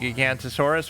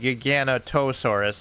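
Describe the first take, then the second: First: The name is said as Gigantosaurus. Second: The name is said as Giganotosaurus. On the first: The speaker calls it wrong. "which is not actually what its name is" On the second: The speaker calls it right. "It's like Giganotosaurus"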